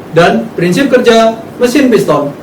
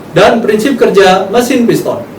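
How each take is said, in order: No difference in how they are said.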